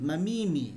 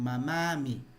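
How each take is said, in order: First: The middle vowel is an 'i' sound. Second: The middle vowel is an 'a' sound. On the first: The speaker calls it wrong. "nosotros no decimos mamimi" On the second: The speaker calls it right. "sino decimos mamami"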